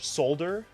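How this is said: It is said with a British accent.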